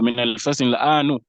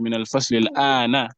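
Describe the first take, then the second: First: The last word ends with a u vowel. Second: The last word ends with an a vowel. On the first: The speaker calls it wrong. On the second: The speaker calls it right. "it's meant to be"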